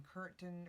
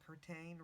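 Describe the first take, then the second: First: "Curtin" with a weak second syllable; Curtin with reduced ending. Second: "Curtain" with a full "tain" syllable; Curtain with full ending. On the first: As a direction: say "Curtin" as "KUR-tn". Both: Shown as a demonstration. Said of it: "Curtin or Curtain Road".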